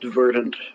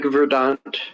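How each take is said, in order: First: The word is said the ordinary English way. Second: The word is said in a fancy French-like way. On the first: This is the usual way to say it. "it's usually pronounced verdant" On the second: This makes the word sound fancier. "it makes it sound fancier. It's like French"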